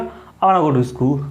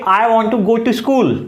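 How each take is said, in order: First: Want to is reduced to one word, wanna. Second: Want to is said fully as two words. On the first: This is how native English speakers say it. "अंग्रेज कहेगा" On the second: This is how Indian speakers usually say it. "हम कहेंगे"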